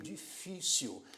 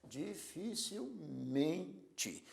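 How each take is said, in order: First: "difícil" slow, di-FÍ-cil; stress on middle syllable. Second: "Dificilmente" very slow and softer, di-fi-cil-MEN-te; stress on MEN. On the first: Teacher showing the tonic syllable, "difícil" stressed on FÍ. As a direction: draw out "difícil", leaning on FÍ. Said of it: "sendo a sílaba do meio". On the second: Teacher showing where stress moved, "Dificilmente" stressed on MEN. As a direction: split "Dificilmente", holding MEN. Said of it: "a sílaba forte é men". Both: Shown as a demonstration.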